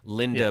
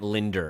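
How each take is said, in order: First: The name ends in a plain vowel, no R. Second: The name ends with an added R sound. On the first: "It's your Aunt Linda" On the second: "becomes your Aunt Linder, ... That's a Long Island thing"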